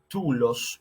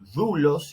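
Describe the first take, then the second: First: The first consonant is a stop 'd' sound. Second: The first consonant is a fricative 'th' sound. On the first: This is the older classical pronunciation. "En vez de tulos" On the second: This is the later Koine pronunciation. "vamos a tener dulos"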